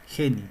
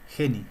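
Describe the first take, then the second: Both takes have the same delivery.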